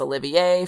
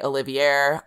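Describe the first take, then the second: First: The name is pronounced with a French flavor. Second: The name is pronounced without a French flavor. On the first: This is how people from the speaker's home region say it. "everything's got like a French twist on it, so it's Olivier for me" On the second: This is how the other person says it. "You say Olivier"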